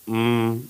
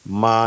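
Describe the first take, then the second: First: The syllable ends on a bare, vowelless m. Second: The m is followed by a full a vowel. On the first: The speaker calls it right. "हलंत आधा मा, ... ऐसा" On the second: The speaker calls it wrong. "मा नहीं"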